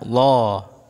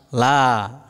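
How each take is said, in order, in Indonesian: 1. Vokalnya tebal dan bulat, seperti 'lo'. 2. Vokalnya tipis dan ringan, seperti 'la'. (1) "tidak lo ya" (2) "tipis ya. Larinya ke suara la ya"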